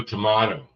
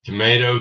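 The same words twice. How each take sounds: First: Tomato said as toe-MAH-toe; tomato with broad a. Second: Tomato said as toe-MAY-toe; tomato with long a. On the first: Host contrasting regional words with the chat, toe-MAH-toe. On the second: Host contrasting regional words with the chat, toe-MAY-toe. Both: Shown as a demonstration.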